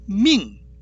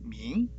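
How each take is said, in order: First: The pitch is strong at the start, then falls. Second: The pitch rises toward the end. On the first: It means to command or order. "강세 앞에 있죠" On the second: It means bright. "뒤 나중에 올리는 발음이죠"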